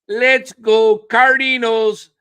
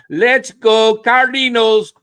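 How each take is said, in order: No difference in how they are said.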